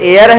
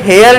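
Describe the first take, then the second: First: The word starts with a vowel, no h. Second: The word starts with an audible h sound. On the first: The speaker calls it right. "ये एयर है" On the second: The speaker calls it wrong. "ये हेयर नहीं है"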